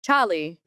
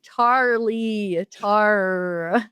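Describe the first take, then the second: First: Said in the usual way. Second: "Charlie" with a hard American R, slowed and spelled out; New Zealander forcing an American "Charlie" on the phone; put-on American accent. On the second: Shown as a demonstration. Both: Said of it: "I had to force myself to put on an accent".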